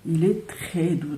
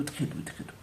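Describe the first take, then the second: First: Said in the usual way. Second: Breathy whisper, much softer, trailing off. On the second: Real, not acted. To viewers while stroking the soft rug, whispered.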